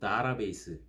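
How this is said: The first syllable is dah, then ra. Some locals say it this mixed way. "혹은 좀 복합적으로 다라베이스, 이렇게 발음하는 사람들이 있어요"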